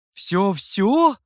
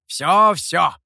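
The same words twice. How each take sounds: First: Rising, doubtful Всё-всё? asked back; checking question. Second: Всё-всё! said louder with a falling, certain end; firm confirmation. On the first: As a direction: ask Всё-всё? with a lifting, unsure end. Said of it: "уточнил хозяин". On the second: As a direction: bang out Всё-всё! as final. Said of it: "подтвердил демон". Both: A narrator's reading.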